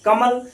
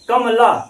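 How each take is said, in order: First: The final syllable is clipped, with no vowel after. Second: The final syllable ends with a full vowel sound. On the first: The speaker calls it right. "आधा ला सुनाई दे रहा है हमको।" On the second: The speaker calls it wrong. "ये नहीं कह रहे हैं कमला"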